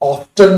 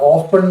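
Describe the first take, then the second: First: The t sound is clearly pronounced. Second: The t sound is left silent. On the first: This is the American way of saying it. "Americans ഓഫ്റ്റൻ എന്ന് പറയും" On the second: This is the British and Indian way of saying it. "ബ്രിട്ടീഷുകാർ ഓഫൺ എന്നാ പറയണം"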